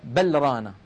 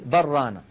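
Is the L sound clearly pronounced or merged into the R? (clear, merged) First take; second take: clear; merged. First: The L is clearly pronounced before the R. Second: The L is merged into the following R. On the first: The speaker calls it wrong. "لا تقول بل رانا هكذا مظهرة" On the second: The speaker calls it right. "تقول بل رانا. فإذا وصلنا لابد من إدغام اللام في الراء"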